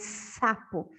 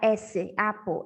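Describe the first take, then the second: First: It begins with a plain hissing s sound. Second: It begins with the spoken letter name 'esse'. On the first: The speaker calls it right. "o som é o C" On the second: The speaker calls it wrong. "a gente não fala S sapo, fala S, apo"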